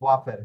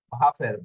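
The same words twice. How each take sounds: First: ওয়াফের begun with a rounded w glide; w sound opening ওয়াফের; W pronunciation. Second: ভাফের begun with a Bengali bh/v sound; ভ sound opening ভাফের; V pronunciation. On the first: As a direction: say ওয়াফের with w as in "water". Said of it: "ভাফের বা ওয়াফের". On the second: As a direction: say ভাফের with ভ, not a w glide. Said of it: "এটার উচ্চারণ হবে ভয়ের মতো". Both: Shown as a demonstration.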